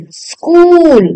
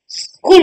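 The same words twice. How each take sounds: First: स्कूल with a long oo; higher, drawn-out "skool" for स्कूल; correct long u. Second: स्कूल with a short, quick u; wrong short u. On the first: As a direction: hold the vowel of स्कूल. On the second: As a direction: say स्कूल as "skul". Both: Shown as a demonstration. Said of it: "बड़ी ऊ की मात्रा".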